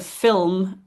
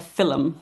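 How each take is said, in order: First: Said in the usual way. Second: "fillum" said as two syllables, fil-lum; fillum with an extra vowel. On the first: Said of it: "you might have fillum". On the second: Shown as a demonstration. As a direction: break "fillum" into fil and lum, Irish style. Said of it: "So instead of film".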